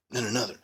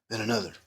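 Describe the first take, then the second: No difference in how they are said.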